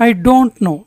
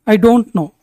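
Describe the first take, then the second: No difference in how they are said.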